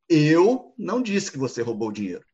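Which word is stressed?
Eu. The stress is on "Eu".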